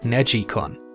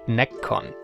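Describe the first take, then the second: First: The first syllable sounds like 'neg', then 'i'. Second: The first syllable sounds like 'neck'. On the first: The speaker calls it right. "the right pronunciation would be something like Negicon" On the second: The speaker calls it wrong. "often called Neccon, like neck"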